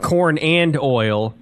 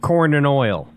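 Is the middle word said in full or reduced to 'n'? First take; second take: full; reduced. First: The middle word is said in full as 'and'. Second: The middle word is reduced to a short 'n'. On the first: The speaker calls it wrong. "Not corn and oil" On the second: The speaker calls it right. "Kind of like Guns N' Roses. There's a letter N there"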